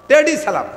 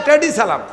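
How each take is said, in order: No difference in how they are said.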